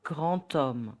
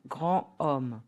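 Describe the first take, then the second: First: GRAND HOMME linked with T, gran-tomme; D of "grand" sounded as T into "homme"; liaison. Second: GRAND HOMME apart, silent D; "grand homme" unlinked, no T; no liaison. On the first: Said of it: "D becomes T". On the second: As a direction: say "grand homme" as gran omme. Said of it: "So the correct pronunciation will be". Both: Shown as a demonstration.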